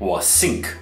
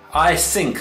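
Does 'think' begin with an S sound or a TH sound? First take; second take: S sound; TH sound. First: Think begins with an S sound. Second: Think begins with a TH sound. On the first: The speaker calls it wrong. "A lot of Chinese people will say sink instead of think" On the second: The speaker calls it right. "应该是 I think"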